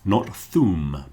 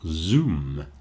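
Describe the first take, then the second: First: The first sound is soft and f-like. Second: The first sound is a buzzing z. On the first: The speaker calls it wrong. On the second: The speaker calls it right. "but Zoom"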